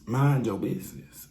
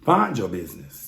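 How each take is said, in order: First: Said in the usual way. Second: "Find your business" with the M swapped for an F; sassy "Find your business"; playful Find your business. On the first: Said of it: "That's what we gonna tell you". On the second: Shown as a demonstration. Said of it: "That's what we gonna tell you from now on".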